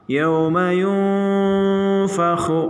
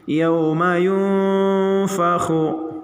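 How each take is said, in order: The two takes are said the same way.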